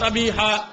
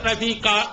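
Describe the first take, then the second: First: The last consonant is a breathy h sound. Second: The last consonant is a hard k sound. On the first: The speaker calls it right. "இந்த ஹாவுடைய உச்சரிப்பு" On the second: The speaker calls it wrong. "ஹாவுடைய உச்சரிப்பு வராம ரபீகா அப்படிங்குவாங்க"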